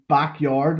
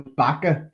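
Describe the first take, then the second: First: The name ends with a 'yard' sound. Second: The name ends with an open 'ah' sound. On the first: The speaker calls it wrong. "Most people say it wrong" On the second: The speaker calls it right. "no, it's Bacca"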